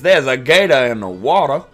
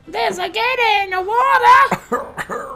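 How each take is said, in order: First: It is said in the speaker's own voice. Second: It is said in an imitation of her voice.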